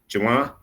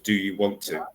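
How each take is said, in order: First: 'Want to' is squeezed into one word, 'wanna'. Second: 'Want to' is said as two clear words. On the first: This is casual everyday speech. "on the street, especially in America, you'd hear" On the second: This is careful speech. "I have to get my pronunciation correct"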